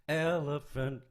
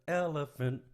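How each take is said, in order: Both takes have the same delivery.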